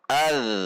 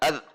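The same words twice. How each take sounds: First: The final z sound flows on continuously. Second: The final z sound is held and cut short. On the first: The speaker calls it right. "dibaca secara mengalir, tidak tertahan" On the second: The speaker calls it wrong. "Tidak az"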